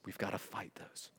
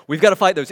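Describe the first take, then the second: First: Whispered. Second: Louder, punching "gotta". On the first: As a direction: whisper "We've gotta fight those" almost unvoiced. Whispered, then repeated loud. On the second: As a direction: declare it after the whisper. Loud repeat after whisper. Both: Real, not acted.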